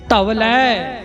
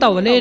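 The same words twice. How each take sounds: First: The word ends in an 'ai' vowel. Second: The word ends in a plain 'e' vowel. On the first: The speaker calls it right. "ਦੋ ਲਾਵਾਂ ਲੱਗੀਆਂ ਹੋਈਆਂ ਨੇ" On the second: The speaker calls it wrong. "ਇਹਨੂੰ ਧੌਲੇ ਨਹੀਂ ਪੜਨਾ"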